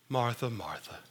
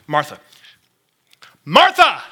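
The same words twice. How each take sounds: First: The name is said in a calm, plain way. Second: The name is said in an urgent, pressing way. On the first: It is just the words as read on the page. "when I read that with my eyeballs, I read" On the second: The speaker is trying to get a flustered person's attention. "I think it might have came out a little bit more like"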